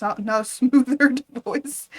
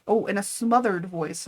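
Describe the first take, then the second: First: Laughing at the slip, a bit louder and higher. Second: Said in the usual way. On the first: Real, not acted. Reader cracks up over a misread word, laughing. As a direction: breaks into a laugh mid-phrase. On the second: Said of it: "wait, in a smothered".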